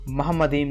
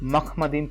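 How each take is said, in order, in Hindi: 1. शब्द 'moham' से शुरू होता है, नरम h ध्वनि के साथ। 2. शब्द 'makh' से शुरू होता है, कठोर kh ध्वनि के साथ। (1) "मोहम्मदीम नहीं" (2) "मखमदीम प्रोनाउंस किया जाता है"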